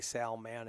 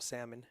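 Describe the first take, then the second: First: Salman as SAL-man, L sounded, full "man"; intended pronunciation. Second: Salmon as SAM-un, L lost, weak ending; accent-slurred pronunciation. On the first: Commentator showing what he tries to say, careful pronunciation. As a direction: say Salman in two clear syllables. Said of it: "when I'm trying to say". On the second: Commentator blaming his Minnesota accent, slurred pronunciation. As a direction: let salmon collapse into the fish word. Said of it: "and it comes out salmon". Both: Shown as a demonstration.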